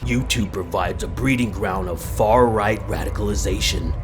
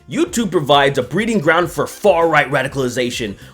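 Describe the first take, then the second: First: It is read in a dark, ominous tone. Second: It is read in a plain, neutral tone.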